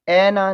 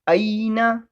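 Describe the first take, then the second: First: The first vowel is a flat e sound. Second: The first vowel glides from a to i. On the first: The speaker calls it wrong. "ऐना नहीं पढ़ेंगे" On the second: The speaker calls it right. "अईना कहेंगे"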